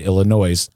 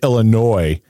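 First: The final S is pronounced at the end. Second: The final S is silent at the end. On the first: The speaker calls it wrong. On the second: The speaker calls it right.

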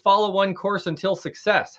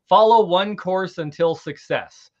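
First: It is said at a normal pace. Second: It is said more slowly.

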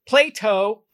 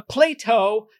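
The two takes are said the same way.

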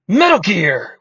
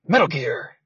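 First: It is said forcefully as an exclamation. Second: It is said flatly as a statement.

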